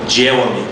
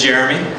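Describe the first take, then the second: First: The R sound is replaced by another sound. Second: The R sound is pronounced clearly. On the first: The speaker calls it wrong. "I had a pretty severe problem correctly pronouncing my R's" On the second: The speaker calls it right. "my name is Jeremy"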